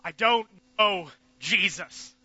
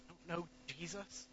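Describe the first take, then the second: First: Loud, slow denial; emphatic denial. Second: Much softer, regretful repeat; broken murmur. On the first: Peter denying Jesus to the crowd, loud emphatic denial. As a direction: deny him hard. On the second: Peter repeating his denial in shame, soft murmur. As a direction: let it fall away in shame. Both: Acted.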